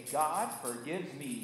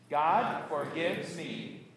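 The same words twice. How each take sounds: First: Said in the usual way. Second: Very slow, deliberate declaration; congregational recitation. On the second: Shown as a demonstration. Pastor leading congregation in the good news, slow recitation. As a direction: draw it out so all can join. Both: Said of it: "and say it with me".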